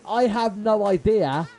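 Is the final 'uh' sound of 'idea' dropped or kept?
kept. Idea ends with a clear final uh sound. The speaker calls it right. "instead of saying"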